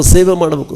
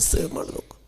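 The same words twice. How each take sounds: First: Said in the usual way. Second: ಸೇವೆ ಮಾಡಬೇಕು breathed as a bare whisper; whispered echo. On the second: Shown as a demonstration. Pastor repeating his call to serve, dying to a whisper. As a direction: let the last ಸೇವೆ ಮಾಡಬೇಕು fade into a whisper.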